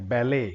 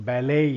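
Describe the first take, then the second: The two takes are said the same way.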